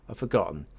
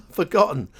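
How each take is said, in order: First: Said in the usual way. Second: A loud, higher, playful repeat of the word; mock despair. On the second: Real, not acted. Player mocking his own memory, loud playful despair. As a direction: throw up his hands and wail it.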